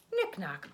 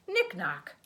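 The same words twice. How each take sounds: The two takes are said the same way.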